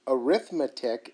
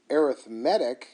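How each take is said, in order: First: The stress falls early, on the second syllable. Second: The stress falls late, on the third syllable. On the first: It is used as a noun. "Arithmetic is a noun" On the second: It is used as an adjective. "what you say when it's used as an adjective"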